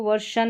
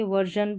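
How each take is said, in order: First: वर्षन with a hard "sh" sound; wrong pronunciation. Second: वर्जन with a voiced "zh/j" sound; correct pronunciation. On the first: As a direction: say वर्षन with "sh" in the middle, as the mistake. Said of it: "इसको वर्षन नहीं पढ़ेंगे". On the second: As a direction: say वर्जन with a buzzing middle consonant, not "sh". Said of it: "वर्जन पढ़ेंगे". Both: Shown as a demonstration.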